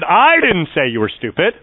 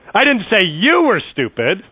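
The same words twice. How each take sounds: First: The stress falls on the word I. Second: The stress falls on the word you. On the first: Someone else said it. "that meant someone else said that you were stupid" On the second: Someone else was called stupid. "I said your mama was stupid"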